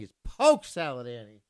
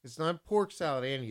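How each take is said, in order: First: "Polk" said as poke, lower and firmer; right way. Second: "Pork" said with a clear r, the wrong way. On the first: DJ correcting, "Polk" said like poke, lower and louder. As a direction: press "Polk" like poke, firm and final. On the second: DJ demonstrating the mispronunciation, "Pork" with an r. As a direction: say "Pork Salad Annie" with the r. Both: Shown as a demonstration. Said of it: "You gotta say it properly".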